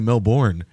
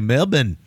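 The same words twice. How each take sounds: First: It is said in a non-Australian accent. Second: It is said in an Australian accent. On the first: "why do I always say Melbourne" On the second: "And they always say Melbourne"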